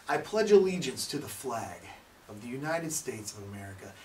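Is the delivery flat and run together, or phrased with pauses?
phrased. It has pauses and a rising, falling pitch. The speaker calls it right. "there's pauses, there's some up and down of the voice"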